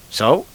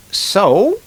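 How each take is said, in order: First: Brief, understated guy's reply; guy in a joke. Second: High, louder lady's retort; lady in a joke. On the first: Guy lying in the sand answers the lady, understated questioning reply. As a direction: lightly voice the guy's questioning comeback. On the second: Lady on the beach retorts to the guy, high mock lady voice. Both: Acted.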